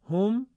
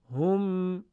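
First: Short «هم», higher and rising; segmented reading. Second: «هم» as long, sustained "hum"; sung, whole-word reading. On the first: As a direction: say «هم» as a quick lifted "hum". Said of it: "هم بخش خوانیش". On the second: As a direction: chant «هم», holding the m. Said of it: "هم کلمه خوانیش و پیوسته خوانیش". (sung, «هم» پیوسته و کشیده) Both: Shown as a demonstration.

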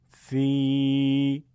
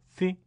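First: "سی" held as a long, level thee; louder, stretched-out i on سی; long madd ya. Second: "سی" as a brief thi; short i with no stretch; short kasra. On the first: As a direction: draw سی out on one steady note. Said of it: "یه بار با یاء مدی". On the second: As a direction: cut the vowel of سی short. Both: Shown as a demonstration.

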